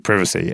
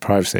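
First: It is said without an American accent. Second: It is said with an American accent.

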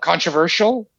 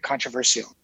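First: The ending is pronounced like 'shel'. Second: The ending is pronounced like 'see-al'. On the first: Someone else says it this way. "You say it as though that last part of it is S-H-E-L" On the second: The speaker says it this way. "I think I say it weird. Because it's a controversy, so it should be controversial"

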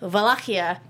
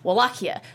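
First: The word begins with a V sound. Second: The word begins with a W sound. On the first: This is the Romanian pronunciation. "it's actually Wallachia in Romanian" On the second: This is the English pronunciation. "in English, it's Wallachia"

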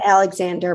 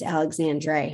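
First: The name ends with a plain 'der' sound. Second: The name ends with a 'dre' sound. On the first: "I said Alexander" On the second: "but it's Alexandre"

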